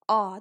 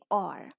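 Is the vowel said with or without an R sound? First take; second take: without R; with R. First: The vowel is said without any R sound. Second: The vowel is said with an R sound. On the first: "The British pronunciation of O R is aw" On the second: "if you follow the American pronunciation, so it's simply or"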